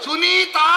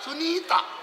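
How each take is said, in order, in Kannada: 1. ಹೆಸರಿನ ಕೊನೆಯ ಸ್ವರ ದೀರ್ಘವಾಗಿದೆ. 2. ಹೆಸರಿನ ಕೊನೆಯ ಸ್ವರ ಹ್ರಸ್ವವಾಗಿದೆ. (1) "ಸುನೀತಾ ಅಲ್ಲ" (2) "ಅದು ದೀರ್ಘ ಆಗ್ಲಿಕ್ಕಿಲ್ಲ, ಹೃಸ್ವ"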